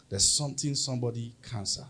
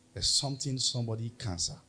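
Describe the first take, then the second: No difference in how they are said.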